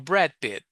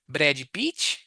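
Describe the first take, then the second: First: Each word ends cleanly on its final consonant. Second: An extra vowel follows each final consonant. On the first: The speaker calls it right. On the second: The speaker calls it wrong.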